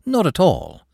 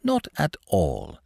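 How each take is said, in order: First: High, quick disclaimer; deprecating. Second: Slow, softened denial; deprecating. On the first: Clerk denies using the manager's visit, deprecating. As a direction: wave it away politely in a raised pitch. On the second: Clerk reassures the manager, slowly deprecating. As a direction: space out the words in gentle dismissal. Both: A narrator's reading. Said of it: "said Smith deprecatingly".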